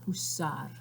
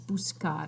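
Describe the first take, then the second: First: No k sound comes before the ending. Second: A k sound comes before the ending. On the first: The speaker calls it wrong. "not busar" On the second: The speaker calls it right. "it's buscar"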